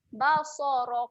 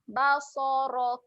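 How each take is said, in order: The two takes are said the same way.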